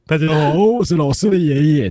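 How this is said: It is said in the grandfather's voice.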